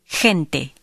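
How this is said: The first sound is a harsh throat h. This is how it sounds in most of Spain. "In most of Spain, it is h"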